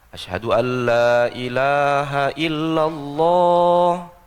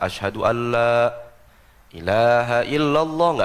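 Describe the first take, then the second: First: The whole phrase is said in one breath. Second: The phrase is split with a breath in between. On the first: The speaker calls it right. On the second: The speaker calls it wrong. "Jadi jangan dibikin dua napas"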